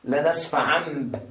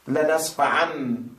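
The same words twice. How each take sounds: Both takes have the same delivery.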